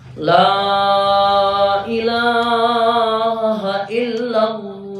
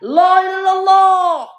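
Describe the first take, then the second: First: It is said at moderate volume. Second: It is shouted loudly.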